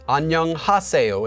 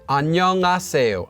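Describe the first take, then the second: First: The h sound in the middle is clearly pronounced. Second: The h sound in the middle is dropped. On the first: The speaker calls it wrong. "People don't actually say it though as 안녕하세요 unless you're reading it syllable by syllable" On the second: The speaker calls it right. "Koreans will actually just pronounce this as 안녕하세요"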